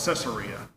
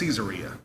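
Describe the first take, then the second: First: The first part does not sound like 'Caesar'. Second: The first part sounds like the name 'Caesar'. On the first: The speaker calls it wrong. "I always called it Caesarea" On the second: The speaker calls it right. "it's pronounced Caesarea in honor of Caesar"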